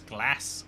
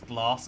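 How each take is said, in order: First: It is said in a northern English accent. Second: It is said in a southern English accent. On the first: "in the north it's glass" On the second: "in the south it's glass"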